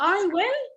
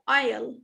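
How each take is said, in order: First: It is said as two full words. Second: It is contracted into one syllable. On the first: "Instead of saying I will"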